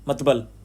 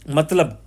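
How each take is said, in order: First: The b sound comes before the l sound. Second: The l sound comes before the b sound. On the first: This is the dialect form. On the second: This is the standard form.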